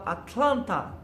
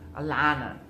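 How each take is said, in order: First: The middle T sound is clearly pronounced. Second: The middle T sound is dropped. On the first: This is how Portuguese speakers say it. "em português a gente fala Atlanta" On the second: This is how Americans say it. "os americanos falam Alana, né? Alana. Então eles não falam esse T"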